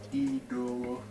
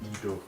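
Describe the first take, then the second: First: The first vowel is on a high tone. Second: The first vowel is on a low tone. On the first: We are not. "it's an I, but this time with a high tone" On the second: We are. "a low tone with an I"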